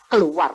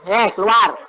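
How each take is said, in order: First: Fierce shouted keluar; fierce command. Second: Light, easy, unforced keluar; calm eh keluar without shouting; gentle command. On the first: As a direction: drive the demon out with force. Fierce rebuke of demon. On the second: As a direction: tell it to leave casually, no force. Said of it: "Tuhan cuma bilang". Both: Retold or imitated.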